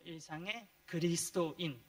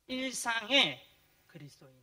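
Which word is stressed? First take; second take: 그리스도인; 일상의. First: The stress falls on the second word. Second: The stress falls on the first word. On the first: Being Christian is weighted above daily life. The speaker calls it right. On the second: Daily life is weighted above being Christian. The speaker calls it wrong.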